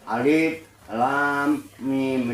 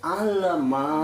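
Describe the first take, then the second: First: Each letter is named separately with breaks. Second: The letters are joined into one short word. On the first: The speaker calls it right. "Nggak boleh disambung" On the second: The speaker calls it wrong. "Nggak boleh dibaca alama gitu, nggak boleh"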